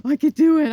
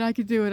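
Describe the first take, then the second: First: I could do it, much higher and louder, puppy voice with the stress on do; eager puppy, do punched up; voicing the puppy. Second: Said in the usual way. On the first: Owner speaking for her puppy, eager high loud puppy voice on I could do it. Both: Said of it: "And she comes over".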